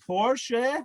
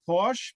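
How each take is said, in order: First: The final vowel is sounded as a second syllable. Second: The final vowel is silent, leaving one syllable. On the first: The speaker calls it right. "The car is called Porsche" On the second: The speaker calls it wrong. "not Porsche"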